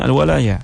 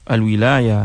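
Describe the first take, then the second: First: The first vowel is an a sound. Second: The first vowel is an i sound. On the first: It refers to protection and help. "dengan fathah" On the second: It refers to authority and power. "kalau kita baca dengan al-kasrah"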